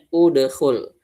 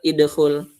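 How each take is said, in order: First: The word begins with an u vowel. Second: The word begins with an i vowel. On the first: The speaker calls it right. "berarti dibacanya udkhul" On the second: The speaker calls it wrong. "bukan juga idkhul"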